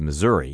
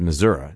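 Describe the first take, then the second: First: It is pronounced the general, non-Midwestern way. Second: It is pronounced the local Midwestern way. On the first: "as opposed to Missouri" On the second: "Missouri is how they say it out there in the Midwest"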